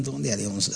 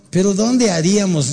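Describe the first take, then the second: First: Repite la pregunta en voz baja, pensativo. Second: Said in the usual way. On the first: Retold or imitated. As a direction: rumia la pregunta para sí, casi hablando solo. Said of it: "Así dije, en voz alta". (repitiendo la pregunta en voz baja, pensativo) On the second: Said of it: "me escuchó Alex y me dijo".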